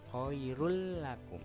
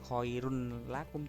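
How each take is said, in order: First: The n merges into the following l sound. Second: The first word ends with a clear n sound. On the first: The speaker calls it right. "tapi khairul" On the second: The speaker calls it wrong. "Jadi bukan bukan khairun lakum juga"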